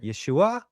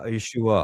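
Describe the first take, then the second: First: The pitch goes up at the end. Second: The pitch goes down at the end. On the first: "or they might even go higher" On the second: "we're more down"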